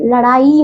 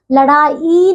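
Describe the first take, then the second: First: लड़ाई ending in a long "ee", at usual pace; correct pronunciation. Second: लड़ाई with the end drawn out slowly; mispronunciation. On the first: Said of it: "बड़े ई की". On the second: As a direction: say लड़ाई slowly as the faulty form. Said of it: "लड़ाई नहीं". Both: Shown as a demonstration.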